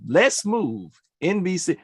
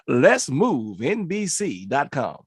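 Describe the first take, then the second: First: It is said in his normal voice. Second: It is said in a put-on DJ voice.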